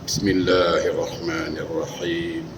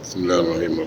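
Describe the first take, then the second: First: It is said slowly and deliberately. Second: It is said quickly and rushed.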